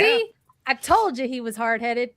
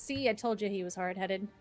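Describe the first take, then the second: First: It is said as a Timon impression. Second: It is read in his normal voice.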